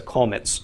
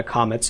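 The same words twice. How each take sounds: First: Kolmets with a short rounded O, KOH-mets. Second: Comets with a clear ah as in father, KAH-mets. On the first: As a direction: say kolmets with a rounded o in the first syllable. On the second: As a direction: say comets with an open ah in the first syllable. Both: Shown as a demonstration. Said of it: "the comments will be pronounced differently".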